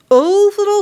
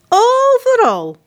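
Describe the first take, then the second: First: Said in the usual way. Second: "Overal" high, loud, slow and drawn out; stressed overal. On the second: A narrator's reading. Narrator stressing "Overal" as soldiers search everywhere. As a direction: stretch "Overal" high and long.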